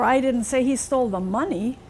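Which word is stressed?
money. The word 'money' carries the main stress. He took something other than money.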